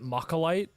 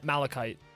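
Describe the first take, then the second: First: The L sound comes after the K sound. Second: The L sound comes before the K sound. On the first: The speaker calls it wrong. "I always called it Mocholite, not realizing that the L came before the C H" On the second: The speaker calls it right. "Let me confirm this. Yeah, malachite"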